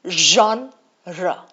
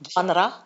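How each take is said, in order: First: The first sound matches the one in 'measure'. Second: The first sound differs from the one in 'measure'. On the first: The speaker calls it right. "Measure wala genre" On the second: The speaker calls it wrong. "It is not genre"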